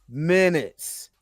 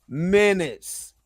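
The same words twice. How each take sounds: Both takes have the same delivery.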